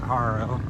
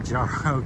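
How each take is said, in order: First: The word begins with an H sound. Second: The word begins with a J sound. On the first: This is how local people say it. "but they pronounce it Haro" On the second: This is how the speaker says it. "I say Jaro because it starts with a J"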